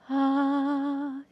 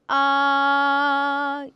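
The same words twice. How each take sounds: First: The voice is weak with much breath heard. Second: The voice is strong with little breath heard. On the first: "소리도 약하고 호흡이 많게 들려요" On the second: "소리가 강하고 호흡이 적게 들려요"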